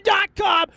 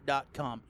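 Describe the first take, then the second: First: Dot com yelled, much higher and louder; shouted. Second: Said in the usual way. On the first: Acted. Podcaster screaming at Walmart over his refund. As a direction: scream the web address at them.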